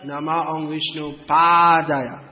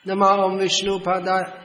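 First: The first vowel of the last word is long. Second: The first vowel of the last word is short. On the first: The speaker calls it right. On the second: The speaker calls it wrong.

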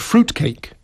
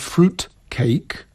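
First: It is said as one compound word. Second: It is said as two separate words. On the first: A traditional dense loaf cake with dried fruit. "which is pisane razem" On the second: A cake containing real pieces of fruit. "pisane oddzielnie"

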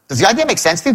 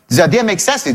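First: The voice sounds baffled and exasperated. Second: The voice sounds guarded and confrontational. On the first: The listener's refusal seems unreasonable. "I don't get it. What's wrong with you? Another tonality" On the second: The listener is treated as an opponent over money. "We're not friends here. We're adversaries because I know you don't want to pay"

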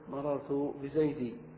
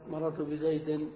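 First: The last word ends with a long vowel. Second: The last word ends with an n sound. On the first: This is the form used when stopping. "فيقف" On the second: This is the form used mid-sentence. "وفي الجر"

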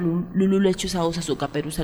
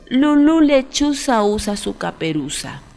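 First: The phrase is said at a faster pace. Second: The phrase is said at a slower pace.

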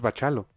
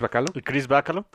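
First: The middle consonant is a ch sound. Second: The middle consonant is a hard k sound. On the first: The speaker calls it right. "ya me enteré que es Bachalo" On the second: The speaker calls it wrong. "si no sonaba como a bacalao"

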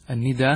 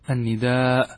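First: The final vowel is short, with no glottal stop. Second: The final vowel is long, ending in a glottal stop. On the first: The form was chosen so the verse scans. "النداء هذا بالقصر" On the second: This is the original form of the word. "على الأصل وهو المد"

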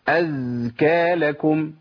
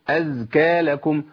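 First: The vowels are stretched out far too long. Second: The vowels are held for a normal length. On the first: The speaker calls it wrong. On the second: The speaker calls it right.

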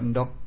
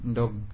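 First: The word ends in a voiceless k sound. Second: The word ends in a voiced g sound. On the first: This is the Javanese way of saying it. "Tapi kalau Jawa ndok" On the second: This is the Sundanese way of saying it. "Kalau Sunda ndog"

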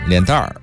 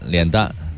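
First: The word ends with an r-colored sound. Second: The word ends without an r-colored sound.

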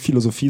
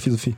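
First: The word is pronounced fully and clearly. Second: The word is slurred and partly mumbled. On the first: The speaker calls it wrong. "die sagen nie Philosophie" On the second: The speaker calls it right. "sondern Philosophie. ... man muss das immer so ein bisschen wegnuscheln"

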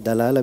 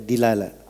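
First: The first vowel is an open a sound. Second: The first vowel is a close i sound. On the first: "Dalalah bisa dibaca dilalah" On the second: "bisa dibaca dilalah"

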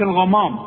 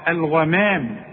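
First: The vowel after the m sounds heavy and full. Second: The vowel after the m sounds light and thin. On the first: The speaker calls it wrong. "ما تقولش الغمام" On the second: The speaker calls it right. "لا الغمام"

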